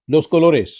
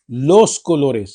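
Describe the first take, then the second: First: Said in the usual way. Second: Los colores drawn out very slowly, each syllable clear; slow careful pronunciation. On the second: Shown as a demonstration. Teacher slowing down los colores so students catch it. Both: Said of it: "गौर करें मैं कह रहा हूं los colores".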